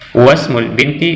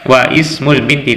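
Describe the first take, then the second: First: The 'i' is dropped, linking straight into 'smul'. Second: The 'i' of ismul is pronounced separately. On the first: The speaker calls it right. "langsung wasmul binti Zainabu" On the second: The speaker calls it wrong. "Kita tidak membaca lagi wa ismul"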